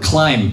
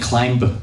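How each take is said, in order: First: The final b is not sounded. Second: The final b is sounded aloud. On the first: The speaker calls it right. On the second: The speaker calls it wrong.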